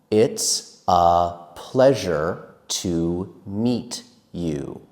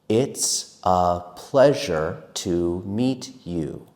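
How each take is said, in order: No difference in how they are said.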